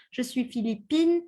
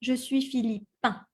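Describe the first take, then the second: First: "Philippine" with the N clearly sounded at the end; feminine Philippine. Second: "Philippin" ending in a nasal vowel, no N; masculine Philippin. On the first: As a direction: pronounce the final N in "Philippine". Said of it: "make the difference". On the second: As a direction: finish "Philippin" through the nose. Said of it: "the un sound". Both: Shown as a demonstration.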